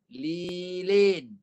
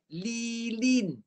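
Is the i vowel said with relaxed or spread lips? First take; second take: relaxed; spread. First: The i vowel is said with relaxed lips. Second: The i vowel is said with spread lips. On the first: The speaker calls it wrong. "Itu sebutan Melayu" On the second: The speaker calls it right. "Tarik sikit. ... Itu bunyi yang betul"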